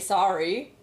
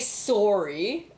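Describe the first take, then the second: First: It is said without a Canadian accent. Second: It is said with a Canadian accent. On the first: "I say sorry" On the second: "I don't say sorry"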